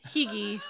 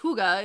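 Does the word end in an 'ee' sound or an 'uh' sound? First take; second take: ee; uh. First: The word ends in an 'ee' sound. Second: The word ends in an 'uh' sound. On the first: The speaker calls it wrong. "So you would think that it's" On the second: The speaker calls it right. "is how you pronounce it"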